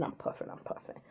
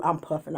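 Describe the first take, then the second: First: Breathy whisper. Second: Said in the usual way. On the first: Retold or imitated. Nervous in line, whispering while puffing the vape. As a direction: drop to a whisper as you puff.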